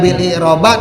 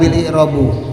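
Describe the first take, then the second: First: The last word ends with an a vowel. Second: The last word ends with a u vowel. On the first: "tidak bil i'roba" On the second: "tidak bil i'robu"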